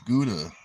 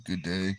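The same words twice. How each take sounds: First: "Gouda" ending in a short "-duh"; said like the cheese. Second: "Good day" ending in a clear "day"; two-word greeting. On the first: Comparing a word to a cheese, "Gouda" said GOO-duh. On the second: Sounding it out against the cheese, "Good day" ending in AY. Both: Shown as a demonstration. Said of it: "sounds like a cheese".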